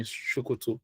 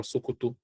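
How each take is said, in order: First: "Sokoto" starting with a hushing sh sound. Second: "Sokoto" starting with a clean s sound. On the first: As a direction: say "Sokoto" as "Shokoto". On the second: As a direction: say "Sokoto" with a plain s. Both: Shown as a demonstration. Regardless of the pronunciation.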